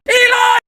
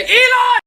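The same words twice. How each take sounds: First: High, loud call of the name; shouting Elon. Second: Shouting Elon. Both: Acted. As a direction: yell it across the room. Recurring shout-out gag.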